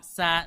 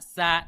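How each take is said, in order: Both takes have the same delivery.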